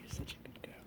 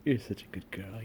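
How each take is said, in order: First: Soft whispered praise; whispering. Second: Gentle cooing praise; soft pet talk. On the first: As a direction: breathe it to the cat. Repeated praise, now whispered. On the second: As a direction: coo it to the cat. Repeated praise to cat. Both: Real, not acted.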